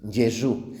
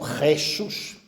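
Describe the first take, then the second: First: The first sound is a soft, gentle consonant. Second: The first sound is a harsh throaty friction. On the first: "así de suave como el italiano" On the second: "lo hemos endurecido"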